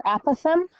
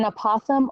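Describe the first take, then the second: First: Apothem said AP-uh-thum; apothem with a short a as in apple, AP-uh-thum; first-syllable stress. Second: Apothem said uh-POTH-um; apothem with a short unstressed first vowel, uh-POTH-um; second-syllable stress. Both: Shown as a demonstration. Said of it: "however you wanna say it".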